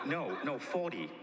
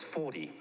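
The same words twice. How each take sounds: First: Higher-pitched corrective reply; retold correction. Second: Understated judgmental echo; judgy echo. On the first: Speaker corrects Bob on the class size, higher-pitched retold correction. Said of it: "I go". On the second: Retold or imitated. Bob repeats the class size back to the speaker, understated judgy echo. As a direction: repeat it back evenly, judging. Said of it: "he does the judgy face".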